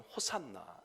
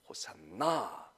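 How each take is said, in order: First: No syllable is stressed; it is said evenly. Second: The stress is on the last syllable. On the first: "우리는 그냥 쉽게 하면 호산나 이렇게 얘기합니다" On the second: "원래는 끝에 가서 액센트가 있습니다"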